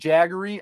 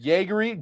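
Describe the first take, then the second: First: The first vowel sounds like in 'bag'. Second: The first vowel sounds like in 'day'. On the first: This may be the correct pronunciation. "I think it might be Jaggery" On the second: This is how the speaker usually says it. "I call it Jaegery"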